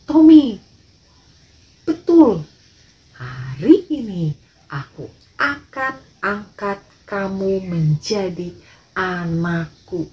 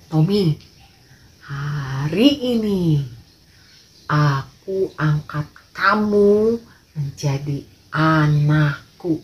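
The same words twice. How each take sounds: First: Insist, then slow right down on the promise; a lightly voiced father, loud then deliberate; emphatic father. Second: Slow, deliberate fatherly announcement; a lightly voiced father, slow and weighty; solemn father. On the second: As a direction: lay it down slowly, like a kind rich man giving his word. Father solemnly adopts Tommy.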